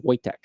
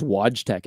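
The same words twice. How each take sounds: First: Wojtek said "VOY-tek" or "WOY-tek", j as y; the j in Wojtek softened to a y sound; correct pronunciation. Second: Wojtek said "WODGE-tek", with an English j; mistaken pronunciation. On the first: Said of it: "but it's pronounced Wojtek". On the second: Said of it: "I thought it was Wojtek at first". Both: Shown as a demonstration.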